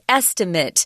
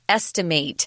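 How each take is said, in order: First: The last syllable has a short I sound. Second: The last syllable has a long A sound. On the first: It names the guess itself. "The noun is estimate, kind of that I, is sound at the end" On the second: It names the act of guessing. "the verb is the A sound, long A"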